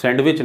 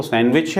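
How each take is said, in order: First: सैंडविच as "sand-wich", d heard; D wrongly sounded. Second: सैंडविच as "san-wich", no d; silent D. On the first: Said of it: "सैंडविच नहीं है". (सैंडविच में डी का गलत उच्चारण) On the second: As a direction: drop the d in सैंडविच. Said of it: "वो सैंडविच है". (सैंडविच में डी silent) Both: Shown as a demonstration.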